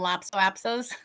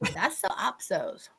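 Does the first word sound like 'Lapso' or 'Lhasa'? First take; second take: Lapso; Lhasa. First: The first word is said as 'Lapso'. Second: The first word is said as 'Lhasa'. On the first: The speaker calls it wrong. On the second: The speaker calls it right.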